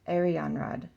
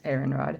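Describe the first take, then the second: First: The name is said as 'Arianrod'. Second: The name is said as 'Aaronrod'. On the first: The speaker calls it right. "That sounds way more pretty" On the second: The speaker calls it wrong. "I always say Aaronrod"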